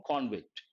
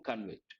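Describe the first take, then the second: First: "convict" stressed on the first syllable, CON-vict; noun stress. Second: "convict" stressed on the second syllable, con-VICT, with a weak "con"; verb stress. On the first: Teacher giving the noun form, first syllable stressed. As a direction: put the weight on the "con" of "convict". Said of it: "Noun form". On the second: Teacher giving the verb form, second syllable stressed. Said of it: "Verb form". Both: Shown as a demonstration.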